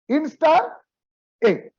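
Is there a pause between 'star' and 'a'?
yes. There is a pause between 'star' and 'a'. The speaker calls it right. "You read it as int star a"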